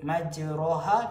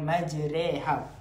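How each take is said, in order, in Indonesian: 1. Vokal setelah r terdengar seperti a terbuka. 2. Vokal setelah r condong ke arah e. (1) "Sepatutnya kalimah maj majroha" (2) "kita baca dengan majreha"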